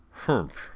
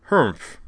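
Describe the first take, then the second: First: Short falling "humph", kept contained; a small grunt on spotting a mistake; perplexed humph. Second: Said in the usual way. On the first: A narrator's reading. Professor realizing his computational error, humph. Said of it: "The sound he had made was".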